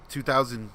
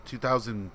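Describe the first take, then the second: No difference in how they are said.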